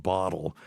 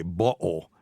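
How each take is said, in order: First: Said in the usual way. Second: "bottle" with a glottal stop for the tt; northern UK "bottle", middle consonant swallowed to a catch. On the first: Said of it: "instead of bottle". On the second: Shown as a demonstration. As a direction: say "bottle" as bo'le, catching the t in the throat. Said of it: "U K accent, you say bottle".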